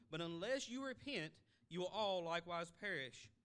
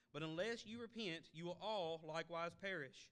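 The two takes are said the same way.

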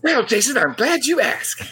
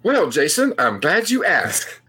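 First: It is said in a peppy, energetic way. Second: It is said in a flat, low-energy way.

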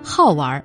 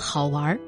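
First: 好 is said with a sharp falling tone. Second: 好 is said with a low dipping tone. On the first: He loves to play and has a childlike heart. "说明他有一颗童心，爱玩" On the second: He is an amusing, interesting person. "说明他是个有意思的人"

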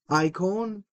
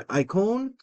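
First: It is said in the Erasmian pronunciation. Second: The same.

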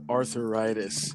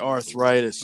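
First: The word is pronounced in an old-fashioned way. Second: The word is pronounced the standard way. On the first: The speaker calls it wrong. "You said arthritis. ... like an old person" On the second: The speaker calls it right. "You didn't say arthritis"

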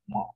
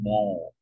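First: The vowel is short, not Northern Jersey. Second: The vowel is long, Northern Jersey style.

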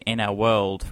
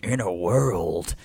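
First: It is said in a plain, ordinary voice. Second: It is said in a dramatic trailer voice. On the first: The speaker calls it wrong. "You just said" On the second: The speaker calls it right. "this is ripe for cinematic storytelling"

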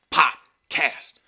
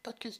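First: It is said loudly and forcefully. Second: It is said flatly and without force. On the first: It is meant to motivate. The speaker calls it right. "Why do I say it like that? Because I feel it's motivating" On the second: It sounds unmotivated. The speaker calls it wrong. "I'm so unmotivated"

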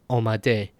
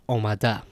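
First: The word ends in an 'e' vowel. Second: The word ends in an 'a' vowel. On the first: This is the form used in Iran. "In Iran, these are pronounced as a. So, shode, bude, omade" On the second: This is the form used outside Iran. "instead of omada"

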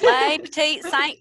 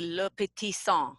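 First: The name is said with an American pronunciation. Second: The name is said with a French pronunciation. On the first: "That's how I say it" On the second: "I think the French pronunciation is actually"

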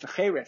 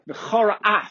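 First: The two words run together into one. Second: The two words are kept apart. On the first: It means to curse. The speaker calls it wrong. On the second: It means anger was kindled. The speaker calls it right.

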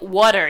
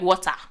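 First: It is said in a British-style accent. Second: It is said in a Nigerian accent.

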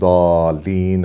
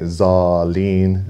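First: The word starts with a 'd'-like sound. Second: The word starts with a 'z'-like sound, Indo-Pak style.

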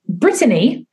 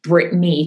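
First: The name is said with a British accent. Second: The name is said with an American accent.

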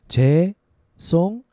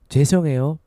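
First: It is said slowly. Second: It is said faster.

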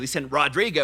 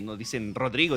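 First: It is said with an American accent. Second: It is said with a Spanish accent.

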